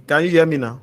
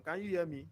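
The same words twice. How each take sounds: First: Speaking up so he is heard; raised voice, checking the line; louder. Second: Faint caller asking if heard; very soft, almost inaudible question; barely audible. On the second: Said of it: "Your voice is very low". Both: Real, not acted.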